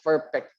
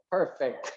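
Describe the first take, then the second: First: The p and f sounds are swapped. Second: The p and f sounds are in place. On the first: The speaker calls it wrong. "not the perfect tense" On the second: The speaker calls it right. "it's the perfect tense"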